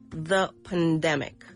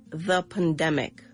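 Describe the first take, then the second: No difference in how they are said.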